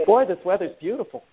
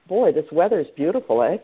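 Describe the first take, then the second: First: Light, joking American accent; American accent, amused. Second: Canadian accent on the closing "eh"; light Canadian accent with a tagged-on "eh". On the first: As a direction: do a playful American take, half laughing. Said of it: "That's my American accent". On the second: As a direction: end on a Canadian-style "eh?". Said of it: "that's my Canadian accent on the end". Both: Shown as a demonstration.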